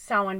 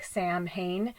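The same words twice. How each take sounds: First: "Samhain" said as SOW-in; correct pronunciation of Samhain. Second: "Sam Hain" read as two English words; spelling pronunciation. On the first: Telling viewers how it's pronounced, "Samhain" as SOW-in. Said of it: "it's pronounced Samhain". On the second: Showing what the spelling looks like, "Sam Hain" as written. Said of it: "it looks like Sam Hain". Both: Shown as a demonstration.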